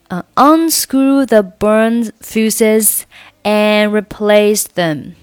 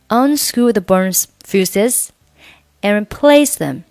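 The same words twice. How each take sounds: First: The word 'and' is pronounced fully and clearly. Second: The word 'and' is weakened to a short 'n'. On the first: The speaker calls it wrong. "你不能说" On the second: The speaker calls it right. "而是"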